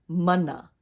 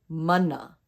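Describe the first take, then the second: No difference in how they are said.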